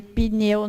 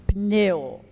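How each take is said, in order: First: "pneu" said as "pineu"; Portuguese-style "pneu", as pi-neu; added I after P. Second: "pneu" with P running straight into N; careful "pneu" without any vowel after P. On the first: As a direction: slip an I between P and N in "pneu". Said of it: "a gente costuma dizer pneu". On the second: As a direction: pop the P of "pneu" directly onto the N. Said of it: "Não tem o I ali". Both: Shown as a demonstration.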